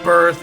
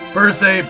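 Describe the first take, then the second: First: The name is said just like the word birth. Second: The name is said unlike the word birth. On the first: The speaker calls it wrong. "birth doesn't sound right" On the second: The speaker calls it right. "so I'm going with Berthe"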